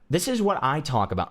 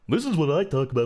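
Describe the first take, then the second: First: It is said in a plain, ordinary voice. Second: It is said in an exaggerated, put-on character voice.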